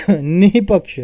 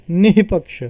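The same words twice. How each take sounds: First: निहिपक्ष slowed down, with the breathy h stretched out; slow visarga demo. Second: Said in the usual way. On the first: Shown as a demonstration. Teacher slowly repeating निहिपक्ष so students hear the breathy h. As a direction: draw out the h of निहिपक्ष slowly so it is heard. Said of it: "देखिए आप, है ना, हो के यहाँ पर आवाज़ आ रही है". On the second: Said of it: "तो यहाँ पे कैसा पढ़ेंगे हम?".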